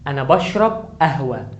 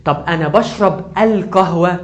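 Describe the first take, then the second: First: Said in the usual way. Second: Slow and loud, pushing القهوة; teacher marking the definite القهوة; stress on القهوة with the article. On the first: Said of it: "لما اجي اقول ان انا بشرب قهوة". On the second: Shown as a demonstration. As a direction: hit the ال of القهوة, slowly. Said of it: "انا قلت الف ولام".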